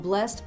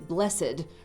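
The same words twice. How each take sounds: First: The word is said as one syllable. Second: The word is said as two syllables. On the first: "We only have eight" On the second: "it's obviously blessed, right? We've all heard Shakespeare words do that"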